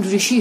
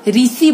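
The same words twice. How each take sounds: First: Said in the usual way. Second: ऋषि said as "risi"; popular mispronunciation. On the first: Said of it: "लेकिन ऋषि होता है". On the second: Shown as a demonstration. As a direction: flatten the "sh" of ऋषि to "s". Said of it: "बोल देते हैं बहुत लोग".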